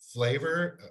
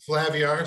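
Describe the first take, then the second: First: The name is said with two syllables, like flavor. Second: The name is said with three syllables, flay-vee-ar. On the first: The speaker calls it wrong. "I'm saying that wrong" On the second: The speaker calls it right. "Sorry. Thank you"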